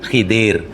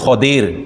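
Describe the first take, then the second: First: The first vowel is an 'i' sound. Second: The first vowel is an 'a' sound. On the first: This is the local adapted pronunciation. "Dah jadi Melayu" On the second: This is the original pronunciation. "Sebenarnya ke apa pengucapannya betul"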